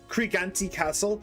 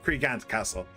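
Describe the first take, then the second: First: The final E of the name is sounded. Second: The final E of the name is silent. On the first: "he pronounces the E, so I will too" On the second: "I would have said Cregant Castle"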